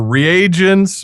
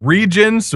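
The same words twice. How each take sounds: First: "reagents" in three syllables, re-AY-gents; pronounced re-AY-gents. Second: "Regents" in two syllables, REE-jents; pronounced REE-jents. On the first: Host weighing two pronunciations, says re-AY-gents. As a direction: draw out "reagents" with a long A. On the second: Host weighing two pronunciations, says REE-jents. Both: Shown as a demonstration. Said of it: "Regents or reagents".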